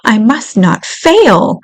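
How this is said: It sounds firm and determined. The speaker is resolved to succeed. The speaker calls it wrong. "It's not, ... She doesn't sound determined"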